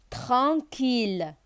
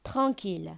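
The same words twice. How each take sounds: First: Tranquille drawn out slowly for the class; Tranquille, each syllable held; slow syllable demo. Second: Said in the usual way. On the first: Shown as a demonstration. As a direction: model Tranquille slowly so pupils can copy. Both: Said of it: "teacher repeats the model word".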